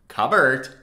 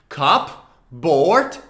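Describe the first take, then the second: First: The P is silent, with no break between the two parts. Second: The P is heard, with a break between the two parts. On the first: "but together it's cupboard" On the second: "The two words separately are pronounced cup, like a cup of tea or coffee, and board"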